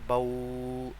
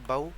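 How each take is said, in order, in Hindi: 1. अंतिम ध्वनि को लंबा खींचा जाता है। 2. अंतिम ध्वनि छोटी और नरम होती है। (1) "लंबा ऐसे नहीं करना कि बऊ" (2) "हम इसे पढ़ेंगे"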